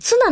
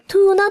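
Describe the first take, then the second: First: The word begins with a ts sound. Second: The word begins with a plain t sound. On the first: This is the standard name for tuna. "ツナなんですけど" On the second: This is how it is said in Okinawa. "沖縄ではトゥーナって名乗るんですよ"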